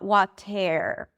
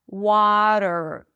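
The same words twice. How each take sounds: First: A vowel sound comes before the final R. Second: A flapped T runs straight into the R. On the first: The speaker calls it wrong. "Not water" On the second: The speaker calls it right. "so it's a flap T and there is no vowel"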